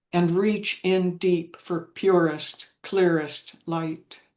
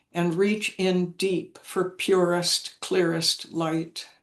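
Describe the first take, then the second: The two takes are said the same way.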